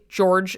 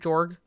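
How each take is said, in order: First: The name is said with its full ending. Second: The name ends abruptly after the G. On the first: "if I were to say George" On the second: "then I cut it off to Jorg"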